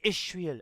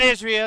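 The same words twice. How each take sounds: First: The word is said with an H sound. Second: The word is said without an H sound. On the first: The speaker calls it right. "You have to say the H" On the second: The speaker calls it wrong. "It's not Israel"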